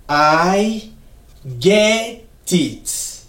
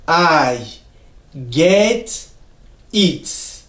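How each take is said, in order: The two takes are said the same way.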